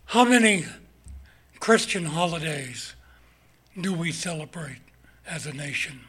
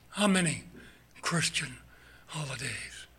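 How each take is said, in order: First: Said in the usual way. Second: Hushed whisper, trailing off. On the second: Acted. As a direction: repeat it softly, almost to yourself. Same question repeated in whisper.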